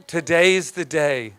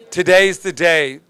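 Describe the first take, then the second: First: "Today's the day" slowed down, falling; slow repeat. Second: "Today's" hit, louder and falling; declared loudly. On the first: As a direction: let it sink in slowly. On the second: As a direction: proclaim it to the congregation. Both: Shown as a demonstration.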